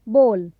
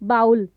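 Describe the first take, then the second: First: The vowel sounds like the one in go. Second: The vowel sounds like the one in cow. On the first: The speaker calls it right. "इस शब्द का जो सही उच्चारण होगा" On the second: The speaker calls it wrong. "But no, this is not the correct pronunciation"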